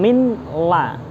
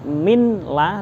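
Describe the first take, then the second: First: The n is pronounced separately before the l. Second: The n is pronounced separately before the l.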